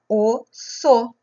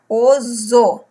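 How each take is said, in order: First: The middle consonant is a voiceless s sound. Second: The middle consonant is a voiced z sound. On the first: The speaker calls it right. "para não ficar com som de Z" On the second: The speaker calls it wrong. "vai ficar com o som de Z"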